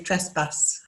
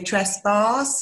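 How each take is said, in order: First: It is said in a northern English accent. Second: It is said in a southern English accent. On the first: "I say trespass. That's because I'm from the north" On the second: "You say trespass"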